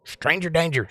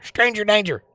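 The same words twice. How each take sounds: First: Higher-pitched playful warning; mock alarm. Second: Very high, squealed playful warning; high mock alarm. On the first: Streamer joking about a complete stranger, mock alarm. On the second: Streamer escalating the stranger joke, high mock alarm.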